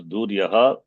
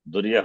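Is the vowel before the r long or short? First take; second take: long; short. First: The vowel before the r is long. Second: The vowel before the r is short. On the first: The speaker calls it wrong. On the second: The speaker calls it right.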